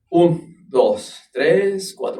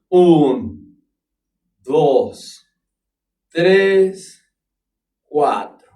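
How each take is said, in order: First: The count is spoken at a medium tempo. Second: The count is spoken at a slow tempo. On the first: "¿lo puedes hacer a cuatro normal?" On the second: "¿Lo puedes hacer más lento?"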